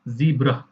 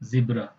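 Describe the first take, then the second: First: The first vowel sounds like 'zee'. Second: The first vowel sounds like 'zeh'. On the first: "American English में क्या बोलते हैं? ज़ीब्रा" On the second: "हम लोग British में क्या बोलते हैं? ज़ेब्रा"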